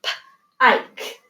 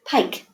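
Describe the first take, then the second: First: P-ike split after p; sounded out. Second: Said in the usual way. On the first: Shown as a demonstration. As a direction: segment pike into p then ike. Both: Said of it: "there's that I".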